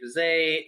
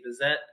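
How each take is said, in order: First: It is said the American way. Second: It is said the British way. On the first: "Americans sometimes say Bizet" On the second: "the British sometimes say Bizet"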